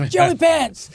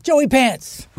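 First: Calling out higher. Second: Calling a name across a crowd, a little raised. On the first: Harrison calls him again over the crowd, higher. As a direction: pitch the name up as if shouting over a crowd. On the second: Harrison hails him from across the crowd, calling out. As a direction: hail a friend from across the room. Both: Retold or imitated.

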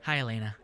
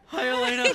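First: Said in the usual way. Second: Put-on high, laughing kid boyfriend voice; middle school voice. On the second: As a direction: play a twelve-year-old boy, higher. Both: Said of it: "That's my middle school voice".

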